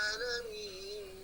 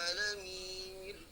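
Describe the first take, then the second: The two takes are said the same way.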